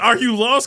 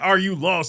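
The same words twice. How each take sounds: First: It sounds concerned and helpful. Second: It sounds hostile and unwelcoming. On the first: The asker wants to help a stranger. The speaker calls it right. "Let me help you" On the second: The asker wants the stranger to leave. The speaker calls it wrong. "Like get out of my town of thirteen"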